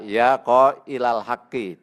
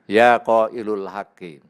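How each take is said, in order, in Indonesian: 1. Kata qail berakhir dengan vokal a. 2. Kata qail berakhir dengan vokal u. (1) "Maka dibaca" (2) "tidak boleh dibaca"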